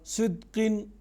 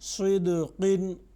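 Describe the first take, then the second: First: The q sound stops flat without a bounce. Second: The q sound bounces back with an echo. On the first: The speaker calls it wrong. "ये दूसरी आवाज़ है। ये जो दूसरी आवाज़ है इस तरह से नहीं पढ़ेंगे" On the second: The speaker calls it right. "जिसमें आवाज़ टकरा कर वापस आती है"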